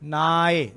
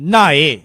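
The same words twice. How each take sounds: First: The word is said flat, without emphasis. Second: The word is said heavy, with emphasis. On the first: "that's it" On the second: "ਇਹਨੂੰ ਭਾਰਾ ਬੋਲਣਾ ਹੈ"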